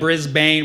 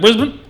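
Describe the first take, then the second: First: The name is fully enunciated, every syllable clear. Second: The name is clipped, in an Australian way.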